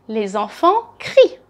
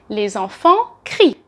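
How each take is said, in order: No difference in how they are said.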